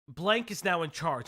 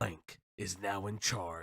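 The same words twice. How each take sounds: First: It is read in his normal voice. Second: It is read in a put-on character voice.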